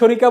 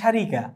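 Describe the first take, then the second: First: The first vowel sounds like a rounded 'o'. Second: The first vowel sounds like an open 'a'. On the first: This is the everyday spoken form. "উচ্চারণে শরিকা বললেও" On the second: This is the actual form of the word. "শব্দটি হচ্ছে শারিকা"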